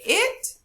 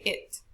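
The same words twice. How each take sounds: First: First "it" punched up as a stressed word. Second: Said in the usual way. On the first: Shown as a demonstration. Teacher asking class to compare takes, IT stressed. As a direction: lift and hit the word "it". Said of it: "Do we have to say it". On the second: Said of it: "or do we just say it".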